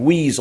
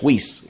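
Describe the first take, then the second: First: The word ends with a buzzing Z sound. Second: The word ends with a hissing S sound. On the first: The speaker calls it wrong. "like with a Z" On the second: The speaker calls it right. "it's really a, like with an S"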